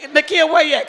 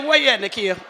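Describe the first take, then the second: First: Higher, louder call across the room. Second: Said in the usual way. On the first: Real, not acted. Host calls Nakia up from the audience, loud call. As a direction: call her name out over the crowd.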